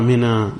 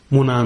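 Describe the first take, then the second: First: "mina" with an i in the first syllable; kasra pronunciation. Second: "muna" with a u in the first syllable; dhamma pronunciation. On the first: Lecturer sums up the variants, "mina" said with an i. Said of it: "or the kasra". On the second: Lecturer sums up the variants, "muna" said with a u. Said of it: "pronounce them with a dhamma". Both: Shown as a demonstration.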